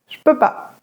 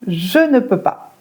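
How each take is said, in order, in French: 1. Le 'ne' est supprimé de la phrase. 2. Tous les mots sont dits, y compris 'ne'. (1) "on enlève le E de je et on enlève le ne de ne pas" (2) "Comment les Français raccourcissent je ne peux pas?"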